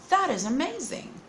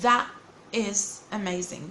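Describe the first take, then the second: First: The T in 'that' is a quick flap. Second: The T in 'that' is a full, careful T. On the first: The speaker calls it right. "we should say it" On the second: The speaker calls it wrong. "we don't say"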